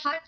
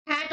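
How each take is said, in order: First: "हट" with a short "u" as in cut; alternative pronunciation. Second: "हैट" with an open "a" as in cat; alternative pronunciation. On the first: Teacher offering students the other pronunciation of the author's name, "हट" with short u. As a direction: say "हट", rhyming with but. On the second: Teacher offering students one pronunciation of the author's name, "हैट" with open a. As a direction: say "हैट", rhyming with bat. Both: Shown as a demonstration. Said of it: "आप जो भी pronounce कर सकते हैं".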